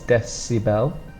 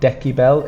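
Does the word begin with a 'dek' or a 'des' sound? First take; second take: des; dek. First: The middle consonant is a soft s sound. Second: The middle consonant is a hard k sound. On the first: The speaker calls it right. "we have the s sound again" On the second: The speaker calls it wrong. "it's not a K, it's not decibel"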